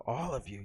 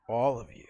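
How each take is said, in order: First: Said in the usual way. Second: Whisper. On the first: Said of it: "I want them to hear you". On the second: Real, not acted. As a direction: whisper it to the crowd. Urging audience.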